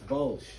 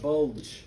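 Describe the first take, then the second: First: The word is said without a d sound. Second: The word is said with a d sound. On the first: The speaker calls it right. "it's Bulge" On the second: The speaker calls it wrong. "There is no D in this. It's not the Battle of the Bulge"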